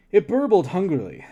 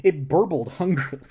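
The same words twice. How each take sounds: First: "burbled" punched louder and higher; stress on burbled. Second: Said in the usual way. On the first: A narrator's reading. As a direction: lean into "burbled hungrily". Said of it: "I'm burbling". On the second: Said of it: "I'm burbling so hungrily right now".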